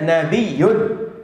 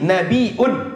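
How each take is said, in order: First: The word has a doubled y sound. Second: The word has a glottal stop before -un. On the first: "Bitasydidil ya'i" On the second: "bil hamzi"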